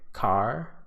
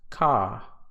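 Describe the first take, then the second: First: The R at the end is pronounced. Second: The R at the end is silent. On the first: "we use it in words like car and start" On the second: "it would be pronounced ka"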